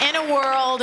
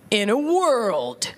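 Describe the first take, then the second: First: Light trailer voice. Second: Slow, dramatic trailer announcer; movie trailer voice. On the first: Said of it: "It's always". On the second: Mocking every movie trailer with the announcer voice. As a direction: draw out each word like an epic preview. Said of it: "here's my impression of every movie trailer". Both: Retold or imitated.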